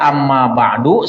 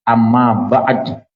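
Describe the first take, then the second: First: The last word ends with a final 'u' vowel. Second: The last word ends on a bare 'd'. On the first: "Bisa dibaca amma ba'du seadanya" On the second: "Du-nya dimatiin pakai pakai uh, sukun jadi amma ba'd"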